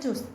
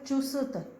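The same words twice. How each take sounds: First: The s is very brief, with no vowel. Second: The s is a full syllable with a vowel. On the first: The speaker calls it right. "आधा स, हल्की सी आवाज" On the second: The speaker calls it wrong. "ये गलत है"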